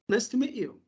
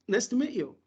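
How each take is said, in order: The two takes are said the same way.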